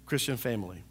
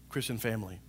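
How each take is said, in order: Both takes have the same delivery.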